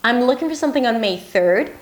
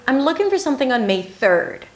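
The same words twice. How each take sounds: First: The pitch rises up at the end. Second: The pitch drops down at the end. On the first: "that open ending leaves more room for an answer" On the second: "to end it like a statement"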